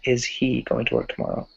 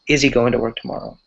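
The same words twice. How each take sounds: First: The h in 'he' is pronounced. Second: The h in 'he' is dropped. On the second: "we might skip that ha sound. We might say"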